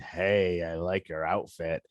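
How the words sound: It is said in a leering, suggestive tone. It carries a sexual innuendo.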